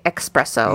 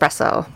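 First: It begins with an 'ex' sound. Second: It begins with an 'es' sound. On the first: The speaker calls it wrong. "some people say espresso" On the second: The speaker calls it right. "There's no X in it"

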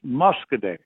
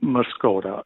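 First: The name ends with a 'day' sound. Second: The name ends with a 'da' sound. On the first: This is the local way of saying it. "that's pronounced Muscoday" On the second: This may be the original native way of saying it. "the Native Indians, pronounced it Muscoda"

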